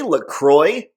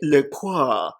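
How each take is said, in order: First: The name is said in a plain, unrefined way. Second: The name is said in a fancy, refined way. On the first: The speaker feels unsophisticated saying it this way. "I feel dumb" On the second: The speaker feels pretentious saying it this way. "I feel all snooty and stuff"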